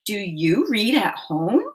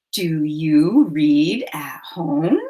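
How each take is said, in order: First: Said in the usual way. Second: Slow breathy whisper. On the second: Shown as a demonstration. Teacher whispering the sentence for counting. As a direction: whisper it slowly, word by word. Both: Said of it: "Say it with me".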